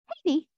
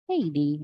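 First: The greeting sounds light and cheerful. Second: The greeting sounds low and troubled. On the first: Everything is fine. "I'm like, okay, we good" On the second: Something bad has happened. "And I was like, you all right?"

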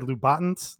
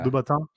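First: The name has an American-style pronunciation. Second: The name has a French-style pronunciation. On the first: The speaker calls it wrong. "I think that's how we say it as Americans" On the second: The speaker calls it right. "I think it's Louboutin"

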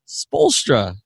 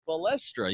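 First: The first syllable sounds like 'spo'. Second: The first syllable sounds like 'spe'. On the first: The speaker calls it right. "he's not spe, he's spo" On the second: The speaker calls it wrong. "You said Spolstra"

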